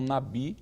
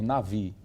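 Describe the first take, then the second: First: The middle consonant is a B sound. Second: The middle consonant is a V sound. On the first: The speaker calls it wrong. "deve ser pronunciado por V e não Nabi" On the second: The speaker calls it right. "seria melhor transliterar por Navi"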